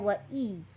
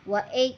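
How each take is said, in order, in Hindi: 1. यह स्वर नरम, लंबी 'ee' ध्वनि है। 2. यह स्वर लंबी 'ay' ध्वनि है। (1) "बिल्कुल नरमी और मारूफ़ तरीके से इसको हमें पढ़ना है" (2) "हमें नहीं पढ़ना है"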